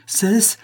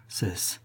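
First: High, rising delirious cry. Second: Low, soft, delirious command; delirious plea. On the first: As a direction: burst out high, beside himself. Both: A narrator's reading. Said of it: "s'écria le notaire en délire".

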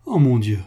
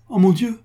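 First: A hint of breaking down; stricken repeat. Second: High, loud gasp of dismay on "mon"; startled dismay; shocked cry. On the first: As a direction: repeat it sinking toward tears. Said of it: "elle fondit en larmes". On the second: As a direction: burst out "Oh mon Dieu!" with a high, loud rise. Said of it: "murmura Antonine en pâlissant". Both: A narrator's reading.

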